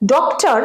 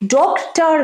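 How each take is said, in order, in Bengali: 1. শেষের r ধ্বনিটি বাদ যায়। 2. শেষের r ধ্বনিটি উচ্চারণ করা হয়। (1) "রটা শেষে ইউজ হয় না" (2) "নয়"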